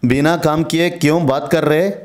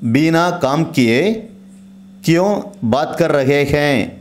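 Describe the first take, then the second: First: The ending is shortened to 'kar re'. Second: The ending is said in full as 'kar rahe hain'. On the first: This is the everyday spoken form. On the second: This is the standard form.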